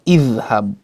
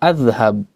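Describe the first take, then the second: First: The word begins with an i vowel. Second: The word begins with an a vowel. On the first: The speaker calls it right. "hamzatul wasl harus dibaca dengan kasroh" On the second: The speaker calls it wrong. "bukan adhhab"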